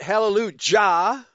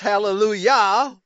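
First: The word is said with a J sound. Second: The word is said without a J sound. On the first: The speaker calls it wrong. "not Hallelujah ... with a J sound ever" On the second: The speaker calls it right. "has always been pronounced Hallelujah"

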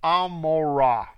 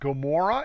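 First: The name begins with a vowel sound. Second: The name begins with a G sound. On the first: This is the original Hebrew form of the name. The speaker calls it right. "it is Amorah with an A" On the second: This is the anglicized form of the name. The speaker calls it wrong. "it is not Gomorrah"

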